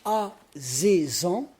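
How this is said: A z sound is pronounced in the middle. This is the Léon dialect form. "ça c'est du léonais"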